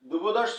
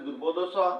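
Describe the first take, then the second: First: An s sound joins the word to 'cha'. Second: The s is dropped and 'cha' stands apart. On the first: The speaker calls it wrong. "দ্রুপদস্ব না বলে" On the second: The speaker calls it right.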